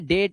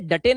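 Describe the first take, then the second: First: It is read as one syllable with 'ay'. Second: It is read as two syllables, ending in 'ay'. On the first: The speaker calls it right. "डेट है" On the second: The speaker calls it wrong. "ये डटे नहीं है"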